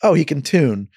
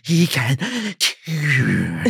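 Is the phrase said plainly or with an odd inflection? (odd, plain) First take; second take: plain; odd. First: The phrase is said plainly, with normal intonation. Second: The phrase is said with an odd, strange inflection. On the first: "I think you get one clean" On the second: "he does this weird inflection"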